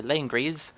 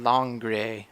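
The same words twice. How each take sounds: First: Langres with the final s sounded; own habitual pronunciation. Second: Langre with no s sound at the end; Langre, drawn out, no final s; proper pronunciation. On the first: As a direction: end Langres on an audible s. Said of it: "although I say Langres". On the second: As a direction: say Langre slowly, ending on an open vowel. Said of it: "I think is how it's pronounced". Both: Shown as a demonstration.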